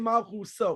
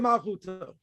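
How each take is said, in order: First: The consonant before the final vowel is an S. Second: The consonant before the final vowel is a T.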